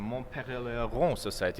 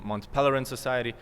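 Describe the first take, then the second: First: The name is said the French way. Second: The name is said the English way. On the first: "I shall not butcher the name" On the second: "we can also stick to the English pronunciation"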